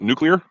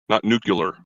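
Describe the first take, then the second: First: The word ends sounding like "clear". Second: The word ends sounding like "cular". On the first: The speaker calls it right. "It's uh, nuclear" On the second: The speaker calls it wrong. "you mispronounced it the second time"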